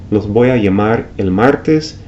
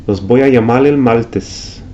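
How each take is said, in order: First: Said in the usual way. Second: Puerto Rican l for r, llamal el maltes; slower Puerto Rican accent, maltes. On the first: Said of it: "Instead of". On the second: Shown as a demonstration. Teacher imitating Puerto Rican r to l. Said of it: "pronounce the R ... like the L".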